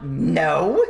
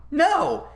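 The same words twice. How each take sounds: First: Said in the usual way. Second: "No." jumps very high into a laughing squeak; squeaky no. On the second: Retold or imitated. Laughing repeat of the denial.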